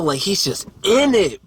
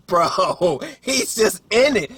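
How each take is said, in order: First: Said in the usual way. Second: Laughing, pitched way up. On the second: Shown as a demonstration. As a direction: repeat it again through a laugh.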